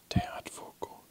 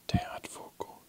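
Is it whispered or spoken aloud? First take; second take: whispered; whispered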